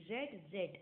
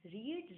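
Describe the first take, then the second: First: "रेड" with a short e, like red; short-e past pronunciation. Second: "रीड" with a long ee, like reed; long-ee pronunciation. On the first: Teacher showing past forms, "रेड" said like red. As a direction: rhyme each "रेड" with bed. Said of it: "इसका pronunciation रेड होता है". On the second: Teacher contrasting verb forms, "रीड" said with long ee. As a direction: say "रीड" with a drawn ee vowel. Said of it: "लेकिन इसका pronunciation रेड होता है, but इसको लिखते रीड ही है". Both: Shown as a demonstration.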